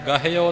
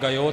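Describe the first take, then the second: First: An h sound is heard in the word. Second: No h sound is heard in the word. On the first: The speaker calls it right. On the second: The speaker calls it wrong.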